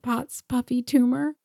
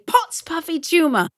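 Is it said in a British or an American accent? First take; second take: American; British. First: It is said in the speaker's ordinary accent. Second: It is said in a British accent.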